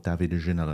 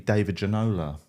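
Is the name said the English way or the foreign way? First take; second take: foreign; English. First: The name is said with foreign-style sounds. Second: The name is said with plain English sounds. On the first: The speaker calls it right. "as you're meant to say it" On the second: The speaker calls it wrong. "I just put zero effort into foreign names"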